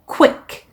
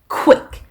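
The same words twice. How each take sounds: First: The k flows into a clear w glide. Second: The k and w sounds are not linked. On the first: The speaker calls it right. "q 하고 we 이거를 연결해서 발음한다고 생각을 해보세요" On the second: The speaker calls it wrong. "quick이 아니고"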